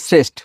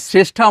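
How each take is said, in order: First: The name ends on a consonant sound. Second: The name ends with an open vowel sound. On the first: This is how people elsewhere say the name. "ওরা আমাদের মতো উচ্চারণ করে না, বলে শ্রেষ্ঠ" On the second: This is how people here say the name. "Actually শ্রেষ্ঠা আমরা বলি"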